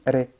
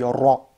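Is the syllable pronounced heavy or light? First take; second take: light; heavy. First: The r syllable sounds light, with a thin vowel. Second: The r syllable sounds heavy, with a deep vowel. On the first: The speaker calls it wrong. "j'ai pas dit ré" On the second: The speaker calls it right. "j'ai dit ra, ra, c'est lourd"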